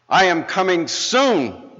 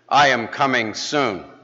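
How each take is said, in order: First: It is said almost shouting. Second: It is said in a louder, firmer voice.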